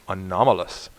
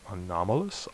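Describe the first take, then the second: First: "Anomalous" said firmly, without the questioning rise; decided, level-ended "Anomalous"; confident correction. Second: "anomalous" quiet with a rising, questioning end; tentative, soft lift at the end of "anomalous"; unsure questioning. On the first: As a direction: settle on "Anomalous" as a sure statement. Settles on the word. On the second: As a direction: try out "anomalous" softly, as if unsure. Unsure how the word reads. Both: Real, not acted.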